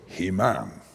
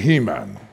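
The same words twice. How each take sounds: First: The stress is on the second syllable. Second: The stress is on the first syllable. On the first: This is how Hebrew speakers say it. "it's completely the opposite" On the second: This is how English speakers say it. "we have a tendency to put the emphasis on the first syllable"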